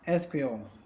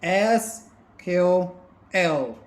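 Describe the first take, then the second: First: It is said quickly, run together as one word. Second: It is said slowly, each letter pronounced separately.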